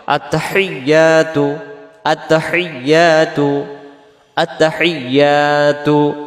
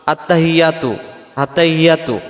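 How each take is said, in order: First: আত্তাহিয়াতু slowly, doubled ya held and "yaa" drawn out; slow model recitation of আত্তাহিয়াতু; correct doubled ya. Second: আত্তাহিয়াতু said with short, unheld vowels; quick spoken আত্তাহিয়াতু, falling at the end; common mispronunciation. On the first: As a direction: chant আত্তাহিয়াতু with long vowels. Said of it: "এই তাসজিদটা সহ আদায় করার জন্য". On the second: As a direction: demonstrate the careless, unstretched আত্তাহিয়াতু. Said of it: "আমাদের উচ্চারণে". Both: Shown as a demonstration.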